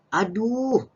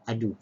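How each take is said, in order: First: Drawn-out, high, loud "Aduh"; cry of pain. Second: Said in the usual way. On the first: Shown as a demonstration. Teacher gives pupils the word for hurting, pained exclamation. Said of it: "bila sakit tadi, kita nak gunakan perkataan apa". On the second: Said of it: "Kat sini".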